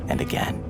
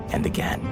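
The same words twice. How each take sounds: The two takes are said the same way.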